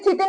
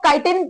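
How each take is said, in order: First: The word starts with a 'chi' sound. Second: The word starts with a 'kai' sound. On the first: "इसे चिटिन भी बोल सकते हैं" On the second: "इसको काइटिन वाइल भी बोल सकते हैं"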